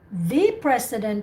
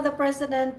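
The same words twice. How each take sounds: First: The word 'the' is said with emphasis. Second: The word 'the' is said plainly, without emphasis. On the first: "then you vary your pronunciation" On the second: "no emphasis there"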